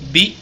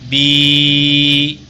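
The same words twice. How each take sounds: First: The vowel is held briefly. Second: The vowel is held for two beats. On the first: "Kalau ini pendek" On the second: "Kalau ini panjang"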